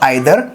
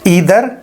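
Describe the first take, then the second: First: The first vowel sounds like 'eye'. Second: The first vowel sounds like 'ee'. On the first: "ईदर और आइदर दोनों pronunciation ठीक है" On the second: "ईदर और आइदर दोनों pronunciation ठीक है"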